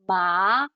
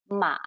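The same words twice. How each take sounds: First: The pitch rises from middle to high. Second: The pitch dips low, then rises again. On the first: It can mean hemp. "it goes up. So it, it's also called a rising tone" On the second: It can mean horse. "it goes deep, it dips down and then it goes back up"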